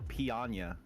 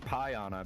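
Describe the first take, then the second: First: The first syllable sounds like pee. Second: The first syllable sounds like pie. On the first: The speaker calls it wrong. "as opposed to piana, which most people don't want to be peed on" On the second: The speaker calls it right. "because people want pie"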